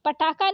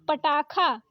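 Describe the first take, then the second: First: पटाखा said as pataka; wrong क for ख. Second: पटाखा with breathed kha; correct aspirated ख. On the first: Teacher showing the mistake, पटाखा with plain k. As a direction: drop the breath from kha in पटाखा. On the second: Teacher correcting it, पटाखा with aspirated kha. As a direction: puff the ख in पटाखा. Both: Shown as a demonstration. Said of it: "क की जगह ख".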